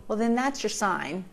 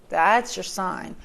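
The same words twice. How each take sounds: First: Said in the usual way. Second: "That's your sign" repeated louder and slowly, stress on "That's" with a falling end; slow emphatic repeat. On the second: Shown as a demonstration. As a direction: hammer the point home: "That's your sign".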